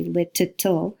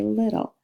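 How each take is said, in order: First: "little" with both Ts sounded out separately; over-articulated double T. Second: "little" with a quick flap for the double T; flapped T. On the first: Teacher showing what we don't say, "little" with hard Ts. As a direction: break up "little" and release each T. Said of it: "We don't say". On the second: Teacher showing what we just say, "little" with flapped T. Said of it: "changing it to that flap sound". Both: Shown as a demonstration.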